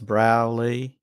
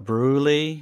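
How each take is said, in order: First: The first syllable sounds like 'brow'. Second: The first syllable sounds like 'brew'. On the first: The speaker calls it right. "in the Australian drawl, it's Browley" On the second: The speaker calls it wrong. "a lot of people mispronounce. They call it Brewley"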